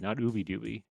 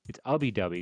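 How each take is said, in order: First: The first vowel sounds like the one in 'boot'. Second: The first vowel sounds like the one in 'tub'. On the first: The speaker calls it wrong. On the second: The speaker calls it right. "ub like tub"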